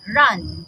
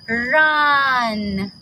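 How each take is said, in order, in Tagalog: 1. Binibigkas ang salita nang mabilis at maikli. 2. Binibigkas ang salita nang mabagal at hinahaba. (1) "and then mabilis" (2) "sasabihin ulit natin yung sound ng mas mabagal"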